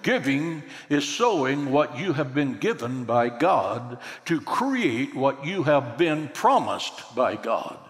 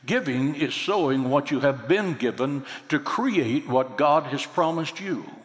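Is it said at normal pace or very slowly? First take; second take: very slowly; normal pace. First: It is said very slowly. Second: It is said at a normal pace.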